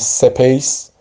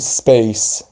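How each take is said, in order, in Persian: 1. بعد از s اول کلمه یه مصوت اضافه میشه. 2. s اول کلمه مصوت اضافه نداره. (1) "درست نیست بگیم سپیس" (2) "سپیس یعنی ساکن تلفظش کنیم"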